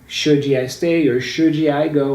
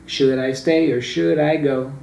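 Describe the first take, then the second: First: The d in should is a full d. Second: The d in should is a quick flap. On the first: The speaker calls it wrong. "they never sang" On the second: The speaker calls it right. "that's how they sing it"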